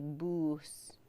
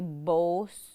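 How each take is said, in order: First: The vowel is a u sound. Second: The vowel is an o sound. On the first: This is how speakers from another tribe say it. "some of the other speakers would say boos" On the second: This is how the speaker's own community says it. "we say bos"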